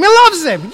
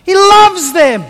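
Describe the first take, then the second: First: Loves leaned on, higher; He loves them, with the weight on loves; stress on loves. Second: Loves leaned on hard, slow and a touch louder; He loves them, said slowly with the weight on loves; slow stress on loves. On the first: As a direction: lean into the word loves. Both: Shown as a demonstration.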